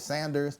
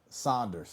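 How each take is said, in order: First: The first vowel sounds like 'sand'. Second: The first vowel sounds like 'sauce'. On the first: The speaker calls it wrong. "but then I hear Sanders" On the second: The speaker calls it right. "I'll be quick to say no, Saunders"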